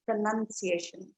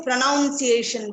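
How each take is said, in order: First: Pronunciation with 'nun' in the middle; pronunciation, no 'noun' sound in it; correct pronunciation. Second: Pronunciation said wrongly, as pro-NOUN-ciation; stressed 'noun' inside pronunciation; common mispronunciation. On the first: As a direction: say pronunciation as pro-nun-ciation, softly. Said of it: "No, it is pronunciation". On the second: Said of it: "which is what most people say". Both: Shown as a demonstration.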